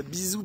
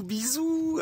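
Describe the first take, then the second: First: Said in the usual way. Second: Bisous leaps much higher in a sing-song. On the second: Retold or imitated. Cashier's second bisous, mocked high and sing-song. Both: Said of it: "après, elle me fait".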